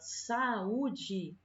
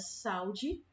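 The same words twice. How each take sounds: First: The a and u are split into separate syllables. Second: The a and u blend into one syllable. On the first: The speaker calls it right. "na pronúncia da palavra, a gente já está separando" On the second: The speaker calls it wrong. "teria duas sílabas"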